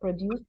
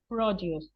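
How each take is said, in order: First: It is pronounced as the verb form. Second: It is pronounced as the noun form. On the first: It means to make something. The speaker calls it wrong. "It's not produce because produce is the verb" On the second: It means local farm products. The speaker calls it right. "that is the word produce. I am not pronouncing it incorrectly"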